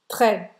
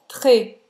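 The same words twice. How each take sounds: First: The vowel is said as an open e. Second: The vowel is said as a closed e. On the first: "O E aberto" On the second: "o E fechado"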